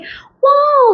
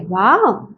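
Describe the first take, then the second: First: It is said in a high-pitched, excited voice. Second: It is said in a calm, natural voice. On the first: The speaker calls it wrong. "that high pitched voice will always be there" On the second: The speaker calls it right. "the pitch needs to be calm"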